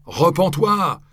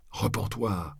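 First: High, loud yell; howled. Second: Said in the usual way. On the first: A narrator's reading. Crowd howls at the friar to repent, high and loud. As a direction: bellow the second repens-toi at him. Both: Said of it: "ils lui hurlèrent".

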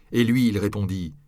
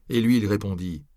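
Both takes have the same delivery.

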